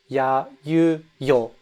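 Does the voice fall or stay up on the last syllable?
falls. The pitch drops on the last syllable. The speaker calls it wrong. "She went down at the end"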